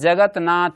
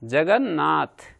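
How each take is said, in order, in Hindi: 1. न से पहले त की ध्वनि रहती है। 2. त दोहरे न की ध्वनि बन जाता है।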